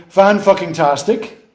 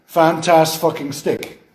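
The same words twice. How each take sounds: First: Fan fucking tastic, stress on Fan, slow and deliberate; infix demo. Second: Fantas fucking stick, slow, each part set apart; wrong infix demo. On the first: Lecturer demonstrating a working infix to the class, slow. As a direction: lay out Fan fucking tastic beat by beat, rising at the end. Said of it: "try put the word fucking in there". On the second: Lecturer testing the infix in the wrong spot, slow. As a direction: try Fantas fucking stick deliberately, to show it fails. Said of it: "The first one worked". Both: Shown as a demonstration.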